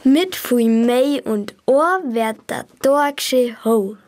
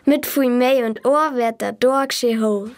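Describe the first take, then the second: First: It is said slowly. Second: It is said at normal speed.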